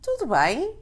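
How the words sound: It is said with a questioning intonation. The speaker is asking if all is well. "with an intonation of a question"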